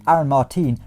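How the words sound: The name is said with Spanish pronunciation. It refers to the Spanish footballer. The speaker calls it right. "if you say it properly like Aaron Martin"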